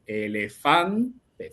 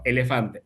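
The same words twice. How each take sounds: First: Elefante drawn out slow with a rising tune; stretched singsong. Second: Said in the usual way. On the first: Shown as a demonstration. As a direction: stretch elefante slowly and let it rise at the end. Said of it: "fan es la sílaba tónica". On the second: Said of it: "quieren decir".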